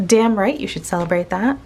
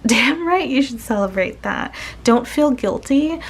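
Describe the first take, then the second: First: Said in the usual way. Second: Laughing, pitched up, cheering them on. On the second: Real, not acted. Reader laughing and cheering the viewer to celebrate.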